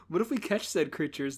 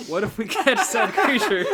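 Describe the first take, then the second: First: Said in the usual way. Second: Laughing. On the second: Acted. Laughing through line.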